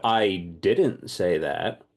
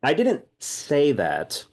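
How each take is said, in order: First: "didnt" stretched with a rising tune, slow; stress on didnt. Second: "didnt" hit higher and louder, slow; stress on didnt. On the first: Teaching English stress, slowly lean on "didnt". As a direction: draw out "didnt" as if implying more. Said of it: "I'm saying it now". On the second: Teacher shows English stress, punching "didnt". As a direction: punch "didnt" to hint you implied it. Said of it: "might have implied it". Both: Shown as a demonstration.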